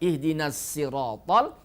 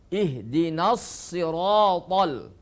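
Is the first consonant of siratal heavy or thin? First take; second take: thin; heavy. First: The s of siratal is thin and light. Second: The s of siratal is heavy and thick. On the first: The speaker calls it wrong. "sifatnya dirubah menjadi tarqiq. Bukan" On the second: The speaker calls it right. "tapi dibaca"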